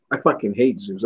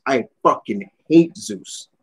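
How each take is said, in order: First: Said in the usual way. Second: "hate" drawn out slowly and hit hard; stress on hate. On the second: Real, not acted.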